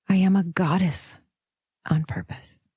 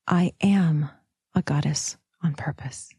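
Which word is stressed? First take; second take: goddess; am. First: The stress is on "goddess". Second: The stress is on "am".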